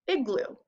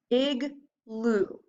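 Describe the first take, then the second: First: Said in the usual way. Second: "igloo" drawn out slowly, both syllables blended; stretched blend. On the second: Shown as a demonstration. Teacher blending igloo slowly for students. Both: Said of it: "And now we have our final syllable".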